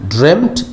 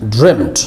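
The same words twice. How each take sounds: The two takes are said the same way.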